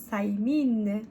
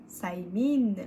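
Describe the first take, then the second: Both takes have the same delivery.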